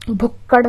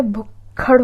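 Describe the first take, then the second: First: भुक्कड़ with unaspirated double k; no puff of air on the k in भुक्कड़; wrong pronunciation. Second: भुक्खड़ split with aspirated 'khad'; correct pronunciation. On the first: Teacher showing the mistake, hard 'kk' in भुक्कड़. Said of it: "भुक्कड़ नहीं होता है". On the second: Teacher correcting the word, aspirated kh in भुक्खड़. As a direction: hold the k, then release 'kh' in भुक्खड़. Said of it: "भुक्खड़ होता है". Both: Shown as a demonstration.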